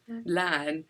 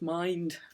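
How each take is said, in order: First: The vowel stays on one steady quality. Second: The vowel glides from one quality to another. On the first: "They produce a monophthong" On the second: "what's called a diphthong"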